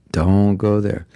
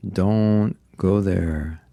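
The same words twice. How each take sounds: First: Said in the usual way. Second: Drawn out slowly, firm; Don't go there said slowly and deliberately; slow warning. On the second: Shown as a demonstration. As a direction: stretch each word as a warning.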